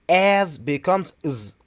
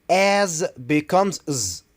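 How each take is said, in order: The two takes are said the same way.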